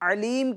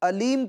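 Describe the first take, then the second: First: It starts with a throaty ain sound. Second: It starts with a plain glottal stop. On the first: It means the all-knowing one. The speaker calls it right. "ऐन की जगह पर" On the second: It means painful. The speaker calls it wrong. "हमजा पड़ेगा"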